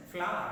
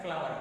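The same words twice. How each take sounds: First: Flower as a native speaker would say it, short and louder; native-speaker pronunciation. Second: Telugu accent. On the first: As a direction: model flower firmly, ending on an open uh sound. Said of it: "the difference between, uh, native speakers' pronunciation". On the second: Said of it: "According to Telugu accent". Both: Shown as a demonstration.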